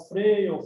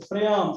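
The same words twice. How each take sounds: First: "Freio" with stressed EI in the first syllable; stress on the stem. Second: "freamos" with stressed A, no i glide; stress after the stem. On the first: Teacher showing where the stress falls, stressed "Freio". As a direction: hit the EI of "Freio". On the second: Teacher showing where the stress falls, stressed "freamos". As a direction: hit the A of "freamos". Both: Shown as a demonstration. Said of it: "quando a sílaba tônica tá no radical".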